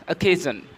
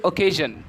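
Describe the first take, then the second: First: Occasion opening on a weak "uh"; model pronunciation. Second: Occasion opening on a full "oh"; questioned pronunciation. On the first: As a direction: say occasion as "uh-KAY-zhun". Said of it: "We pronounce". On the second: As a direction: say occasion as "oh-KAY-zhun". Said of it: "Do you pronounce the word". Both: Shown as a demonstration.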